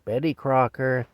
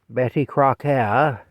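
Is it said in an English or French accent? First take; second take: English; French. First: It is said in a plain English accent. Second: It is said in a stereotypical French accent.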